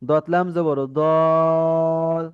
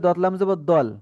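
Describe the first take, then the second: First: The first vowel is drawn out long. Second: The first vowel is short, not drawn out. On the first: The speaker calls it right. "তখন দতে চার আলিফ টান হচ্ছে" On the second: The speaker calls it wrong. "তাতে দতে কিন্তু মোটেই টান হচ্ছে না"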